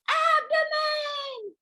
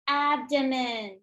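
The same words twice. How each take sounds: First: Very high, slow, shouted abdomen full of joy; like you won the lottery. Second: Said in the usual way. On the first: Shown as a demonstration. Teacher showing the class a lottery-winner abdomen, high and shouted. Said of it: "Say it like you won the lottery". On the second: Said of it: "Say it to your pencil".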